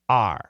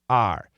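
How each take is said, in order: First: The word is reduced to a short 'r' sound. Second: The word is reduced to a short 'r' sound.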